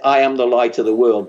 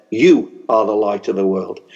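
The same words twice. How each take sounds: First: I am the light of the world with I stressed; quoting Jesus, weight on I. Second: You are the light of the world with You stressed and lower; Jesus to his disciples, weight on You. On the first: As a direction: lean on I, Jesus speaking of himself. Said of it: "he said". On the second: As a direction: turn it outward and lean on You. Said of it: "he turned to his disciples and he said". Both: Retold or imitated.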